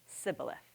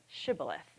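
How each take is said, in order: First: The word begins with an 's' sound. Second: The word begins with an 'sh' sound. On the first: The speaker comes from the other group. The speaker calls it wrong. "the Ephraimites would pronounce it sibboleth" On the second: This is how the word was meant to be said. The speaker calls it right. "say the word shibboleth"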